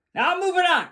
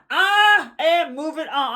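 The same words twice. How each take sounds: First: Said in the usual way. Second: Slow, drawn-out "I am", full words; stress on AM. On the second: Real, not acted. Host insisting the matter is closed, stressing "am". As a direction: lean hard on "I am", stretching it. Restated with uncontracted, stretched I am.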